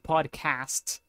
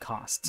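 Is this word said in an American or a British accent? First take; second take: American; British. First: It is said in an American accent. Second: It is said in a British accent. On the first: "the American pronunciation would be podcast" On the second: "in my pronunciation, I would say podcast. ... the British pronunciation would be podcast"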